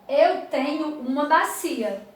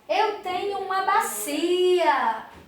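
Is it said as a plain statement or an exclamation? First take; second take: plain statement; exclamation. First: It is said as a plain, calm statement. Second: It is said with exaggerated, exclaiming emphasis.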